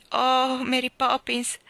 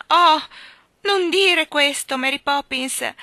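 First: A louder, higher eager cry to the nanny; boy impatiently crying out her name; impatient exclaim. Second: Much louder, higher slow pained cry; plead, dragging the words in distress; girl whimpering her nanny's name in pain; whimpering plea. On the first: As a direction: burst out impatiently, much higher. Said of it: "esclamò con impazienza". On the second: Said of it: "ella piagnucolò". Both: A narrator's reading.

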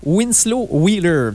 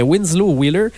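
First: "Winslow Wheeler" said slowly, with a French speaker's stab at an English accent; slow, careful English-accented try at "Winslow Wheeler"; French speaker mangling "Winslow Wheeler" in an English accent; English accent attempt. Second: Said in the usual way. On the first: Shown as a demonstration. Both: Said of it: "j'ai massacré son nom avec mon accent anglais".

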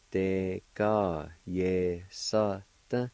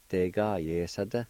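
First: "Te ka ye sa te" said very slowly; slow pronunciation. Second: "Te ka ye sa te" at normal speed; natural pronunciation. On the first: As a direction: stretch "Te ka ye sa te" for the learner. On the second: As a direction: say "Te ka ye sa te" as one word. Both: Shown as a demonstration. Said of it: "like this".

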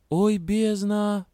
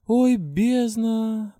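First: High slow groan of "Ой, бездна"; drawn-out dismay. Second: High, slow, drawn-out groan; moaning. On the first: Heroine thinks to herself, a drawn-out dismayed groan. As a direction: stretch out "Ой" in dismay. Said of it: "подумала я". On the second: Heroine groans at the bad news, high drawn-out moan. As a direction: moan "Ой, бездна!" high and long. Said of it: "простонала я". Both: A narrator's reading.

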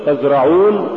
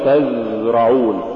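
First: Said in the usual way. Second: تزرعون with a long buzzing ز; overdone zay. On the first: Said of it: "قل تزرعون". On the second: Shown as a demonstration. Teacher warning against exaggeration, overlong ز in تزرعون. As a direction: drag out the ز in تزرعون. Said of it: "ولا تقل".

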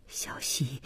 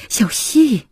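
First: Very soft, low murmur; low, barely voiced appeal; hushed plea. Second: Raised, high-pitched cry of the name; sudden loud appeal; urgent call. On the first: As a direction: call the name under your breath. Husband pleading as wife leaves. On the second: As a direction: call out louder and higher, pleading. Husband pleading, calls her name louder. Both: A narrator's reading.

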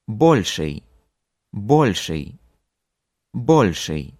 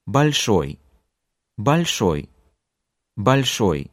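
First: "Больший" stressed on БОЛЬ; full long o opening "Больший"; stress on first syllable. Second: "Большой" stressed on ШОЙ; unstressed first o, strong ending in "Большой"; stress on last syllable. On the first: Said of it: "the other one at the beginning". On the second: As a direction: hit the final syllable of "Большой". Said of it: "one at the end". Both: Shown as a demonstration.

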